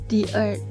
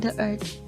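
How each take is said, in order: First: 'The' is pronounced 'thee' before the vowel. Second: 'The' is pronounced 'thuh' before the vowel. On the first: The speaker calls it right. "bukan the lagi tapi di" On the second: The speaker calls it wrong.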